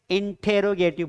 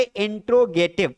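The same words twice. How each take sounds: First: इंटरोगेटिव said as in-te-ro-ge-tiv, with an e before the r; correct pronunciation. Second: इंट्रोगेटिव said with the r right after the t, no vowel between; old pronunciation. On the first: Teacher models the right word for students: इंटरोगेटिव as in-te-ro-ge-tiv. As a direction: say इंटरोगेटिव clearly with the extra syllable. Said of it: "उसे इंटरोगेटिव बोला जाता है". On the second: Teacher shows the old form to students: इंट्रोगेटिव as in-tro-ge-tiv. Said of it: "old version है". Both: Shown as a demonstration.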